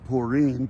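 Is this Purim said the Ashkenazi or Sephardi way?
Sephardi. It is said the Sephardi way, like 'pu-rim'. The speaker calls it right.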